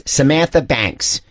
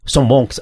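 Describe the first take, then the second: First: "Samantha Banks" slowly, every syllable articulated; clear American pronunciation. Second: "Sam Banks" with rounded, swallowed vowels; imitated British pronunciation. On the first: Shown as a demonstration. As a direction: spell out "Samantha Banks" with open American vowels. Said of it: "he means Samantha Banks". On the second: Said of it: "when he says Sam Banks".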